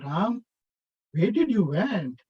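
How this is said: It is said in a knowing, teasing tone. The speaker already knows where Ram went. "oh, I know where did you went"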